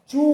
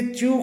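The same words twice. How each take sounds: First: चू as a plain long "choo", no glide; correct pronunciation. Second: च्यू with a y glide, "chyoo"; common mispronunciation. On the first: Teacher modelling the right form, चू said as pure "choo". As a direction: go straight from ch to oo in चू. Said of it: "सही जो pronunciation होता है". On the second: Teacher showing the usual error, च्यू with a y glide. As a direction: slip a y into च्यू. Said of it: "जबकि इसका सही जो". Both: Shown as a demonstration.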